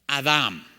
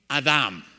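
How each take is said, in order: Both takes have the same delivery.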